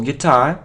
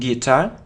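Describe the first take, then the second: First: The stress is on the second syllable. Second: The stress is on the first syllable. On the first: The speaker calls it right. "So the stress is on the second syllable" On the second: The speaker calls it wrong. "it isn't guitar"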